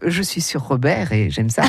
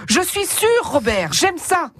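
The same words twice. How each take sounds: First: "sûr" said as "sur", much lower, one phrase through "Robert et j'aime ça", cheeky laugh; low and suggestive, "sur Robert", with a chuckle; sur without accent. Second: "sûr" said as "sure", rising, then a slow "Robert, j'aime ça"; "Je suis sûr" as "I'm sure", pause before "Robert"; sûr with circumflex. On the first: (« sur » sans accent, très grave, coquin, en riant) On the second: ("sûr" avec l'accent circonflexe, « je suis certain », montant) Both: Shown as a demonstration. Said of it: "C'est très différent de".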